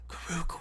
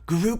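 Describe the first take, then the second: First: The name is said in a low, metallic voice. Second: The name is said in a plain, unmetallic voice. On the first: The speaker calls it right. "Yeah, that was pretty good" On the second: The speaker calls it wrong. "That wasn't really metallic"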